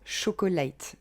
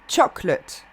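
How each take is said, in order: First: The word is said with three syllables. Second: The word is said with two syllables. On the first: The speaker calls it wrong. "les Français qui ont tendance à dire chocolate. Donc ils rajoutent une syllabe" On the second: The speaker calls it right. "C'est seulement deux syllabes. Choc, lut"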